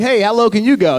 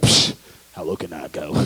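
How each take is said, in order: First: Raised, lively challenge; limbo challenge. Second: Much lower, softer scoff; scoffing low reply. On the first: Onlookers challenging a limbo player, in a higher voice. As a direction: call it out higher, like a dare. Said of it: "They'll be like". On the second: Limbo player answering the challenge, scoffing in a low voice. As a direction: drop it right down and brush off the dare. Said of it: "You're like". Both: Acted.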